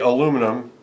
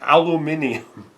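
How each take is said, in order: First: It is said with the speaker's own pronunciation. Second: It is said with a British pronunciation. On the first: This is how the speaker says it. "I say aluminum" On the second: This is how the British say it. "they have hilarious little little uh, you know bends on their on their words"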